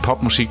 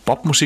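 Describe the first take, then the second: First: The word begins with a voiceless P sound. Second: The word begins with a voiced B sound. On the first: "De spiller ikke popmusik" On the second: "Og P udtales som B"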